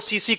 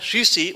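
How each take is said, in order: First: The word is said with s sounds. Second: The word is said with sh sounds. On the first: This is how Maithili speakers say the word. "उसे वो सीसी कहते हैं वहां" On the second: This is the standard word for a small bottle. "जो bottle होता है शीशी"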